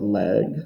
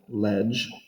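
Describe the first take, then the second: First: The stem is said in the classical style. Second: The stem is said in the ecclesiastical style.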